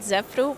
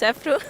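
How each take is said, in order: First: The name begins with a buzzing z sound. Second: The name begins with a hissing s sound. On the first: The speaker calls it wrong. "Many people pronounce it Zefru" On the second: The speaker calls it right. "but it's Sefru"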